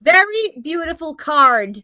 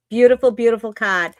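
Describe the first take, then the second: First: "card" said carefully with its R; high, loud, deliberate R in "card"; corrected R. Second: Boston "card" with the R dropped; loud Boston-accented "card". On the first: Shown as a demonstration. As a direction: correct yourself, sounding the R in "card". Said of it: "not displaying my Boston accent". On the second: Real, not acted. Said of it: "That was very boss".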